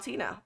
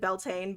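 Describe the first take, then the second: First: The name starts 'bee-yowl' with three syllables. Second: The name has two syllables, starting like 'bell'. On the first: The speaker calls it right. "You actually have to like put the Yowl in there" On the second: The speaker calls it wrong. "I would pronounce it Beltane, but that's not correct"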